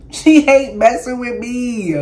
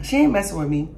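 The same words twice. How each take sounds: First: Slow, louder, laughing through the words. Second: Said in the usual way. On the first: Real, not acted. Teasing the friend off camera, laughing loudly.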